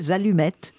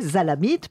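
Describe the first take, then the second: First: The vowels are u and e, as in French. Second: The vowels are a and i, no u or e. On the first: The word keeps its original French vowels. "plutôt que zalumette" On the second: The word is adapted to Arabic's three vowels. "on remplace les voyelles par d'autres voyelles. Alors, ça fait zalamite"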